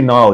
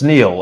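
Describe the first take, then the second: First: One syllable, sounding like the river Nile. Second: One syllable, rhyming with 'feel'. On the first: This is a mistaken relearned pronunciation. The speaker calls it wrong. "you're confusing me with the well-known Egyptian river" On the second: This is how the name is properly said. The speaker calls it right. "it's it's Neil. It's Neil"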